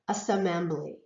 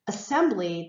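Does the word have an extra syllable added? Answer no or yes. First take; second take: yes; no. First: The word is said with an extra syllable added. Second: The word is said with its normal syllables. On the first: The speaker calls it wrong. "they might produce or pronounce extra syllables or extra sounds" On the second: The speaker calls it right. "instead of saying assembly"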